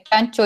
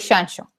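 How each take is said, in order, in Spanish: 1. Empieza con sonido 'ch'. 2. Empieza con sonido 'sh'. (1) "el sonido de Chile, C H" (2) "el sonido sh"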